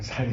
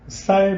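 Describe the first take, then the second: First: The first sound is a plain s sound. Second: The first sound is a tense ss sound. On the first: The speaker calls it wrong. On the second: The speaker calls it right.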